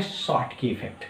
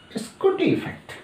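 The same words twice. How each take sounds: First: शॉर्टकी effect said plainly as the proper term; correct pronunciation. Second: स्कूटी effect squeaked much higher as a playful twist; joking mispronunciation. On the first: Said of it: "सही pronunciation है". (शॉर्टकी effect का सही उच्चारण) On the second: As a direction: turn Schottky into स्कूटी effect with a high teasing lilt. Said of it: "हम बोलते हैं". (ऊँची आवाज़ में मज़ाकिया स्कूटी effect) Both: Shown as a demonstration.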